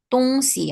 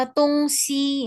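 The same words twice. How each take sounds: First: "Dongxi" with "xi" cut short; short final syllable. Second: "dongxi" with "xi" held long and high; long final syllable. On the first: Teacher showing students the correct reading, "Dongxi" with short "xi". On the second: Teacher contrasting two readings for students, "dongxi" with long "xi". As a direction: draw out the "xi" in "dongxi". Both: Shown as a demonstration. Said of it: "Bacanya yang belakang itu pendek".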